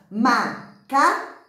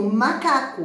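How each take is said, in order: First: MACACO broken into ma, ca, co with pauses; slow, separated MA - CA - CO; syllable by syllable. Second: Said in the usual way. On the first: Shown as a demonstration. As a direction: count out MACACO slowly, one syllable per mouth opening. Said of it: "Quantas vezes você abre a boca".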